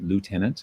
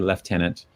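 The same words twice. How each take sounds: First: It is said with an American pronunciation. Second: It is said with a British pronunciation. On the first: "all the Americans watching are going to want to pronounce it" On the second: "I'm pronouncing it the British way"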